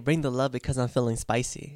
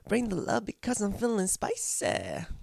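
First: It is said plainly, without an accent. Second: It is said with a put-on accent.

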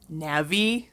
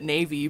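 First: The name sounds like the start of navigator. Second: The name sounds like the word navy. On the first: "some people will pronounce it like Navi. Like Navigator? Yeah" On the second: "I pronounced it Navy because that's just like how I read the word"

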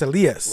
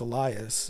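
First: The name is said with a Spanish pronunciation. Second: The name is said with an English pronunciation. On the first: The speaker calls it right. "It's Elias" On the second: The speaker calls it wrong. "I don't think it's Elias"

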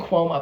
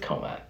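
First: The name is said like Cuomo. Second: The name is said like Coma. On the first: The speaker calls it wrong. "I think I say Cuomo" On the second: The speaker calls it right. "but I think it's Coma"

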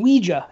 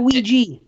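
First: The second syllable sounds like German 'ja'. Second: The second syllable sounds like 'jee'. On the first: The speaker calls it right. "call it Ouija ... From the French and German for yes, we and ja" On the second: The speaker calls it wrong. "not Ouija"

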